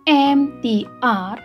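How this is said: The letters use English names, ending in ar. "seharusnya dibaca dengan abjad bahasa Inggris"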